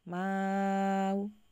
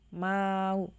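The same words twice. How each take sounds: First: The vowel before the hamza is held very long. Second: The vowel before the hamza is held briefly. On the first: "isba berarti maknya enam harokat" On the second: "qasr berarti maknya dibaca dua harokat dulu"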